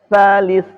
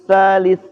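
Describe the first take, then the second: No difference in how they are said.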